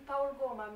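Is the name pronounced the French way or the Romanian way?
Romanian. The name is pronounced the Romanian way. "nous qui savons que c'est Paul Goma"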